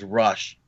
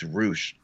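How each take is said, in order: First: The vowel is a short 'uh' sound. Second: The vowel is a long 'oo' sound. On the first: The speaker calls it wrong. "I've always thought his name was Rush" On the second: The speaker calls it right. "by the way, it's Roosh"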